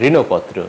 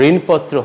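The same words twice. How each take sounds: First: ঋণপত্র said "rino-potro"; sounded middle vowel in ঋণপত্র; correct pronunciation. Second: ঋণপত্র said "rin-potro"; no vowel after the n of ঋণপত্র; wrong pronunciation. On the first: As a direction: add "o" after the n in ঋণপত্র. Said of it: "হবে". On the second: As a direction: join n to p in ঋণপত্র. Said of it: "ঋণপত্র হবে না". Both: Shown as a demonstration.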